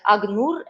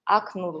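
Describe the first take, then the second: First: The consonant before n is voiced. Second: The consonant before n stays voiceless. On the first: "the unvoiced consonant is replaced with its matching sonorous consonant" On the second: "without uh, changing the sounds"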